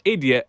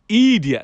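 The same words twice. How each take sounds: First: It is said in a plain standard accent. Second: It is said in a drawn-out Caribbean accent. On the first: "not idiot" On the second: "the little Caribbean idiot"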